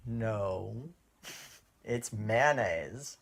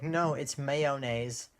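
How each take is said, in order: First: "mayonnaise" drawn out as MAN-aze; Californian pronunciation. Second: "mayonnaise" slowly as MAY-oh-naze; girlfriend's pronunciation. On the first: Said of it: "And I'm like". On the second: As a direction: correct with three syllables in "mayonnaise", MAY-oh-naze. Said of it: "She's like". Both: Retold or imitated.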